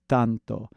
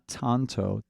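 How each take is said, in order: First: The T is dental with a slight D quality. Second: The T is a plain, non-dental T. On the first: The speaker calls it right. "you mix a little D in there with your T" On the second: The speaker calls it wrong. "It's not tanto"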